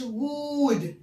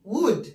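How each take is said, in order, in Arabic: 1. الحركة تُمدّ وتُقال طويلة. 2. الحركة تُقال قصيرة وسريعة.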